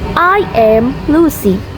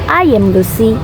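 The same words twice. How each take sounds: First: Each word is said fully, sounding robotic. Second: The small words are reduced with a schwa. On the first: The speaker calls it wrong. "They sound quite robotic" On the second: The speaker calls it right. "But the correct is"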